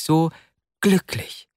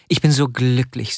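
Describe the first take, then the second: First: So glücklich lifted higher; rapt repeat. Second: Said in the usual way. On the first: Acted. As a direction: say so glücklich again, soaring up. (das wiederholte so glücklich höher und inniger)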